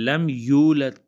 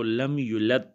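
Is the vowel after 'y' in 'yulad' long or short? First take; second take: long; short. First: The vowel after y is held long. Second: The vowel after y is cut short. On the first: The speaker calls it right. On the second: The speaker calls it wrong.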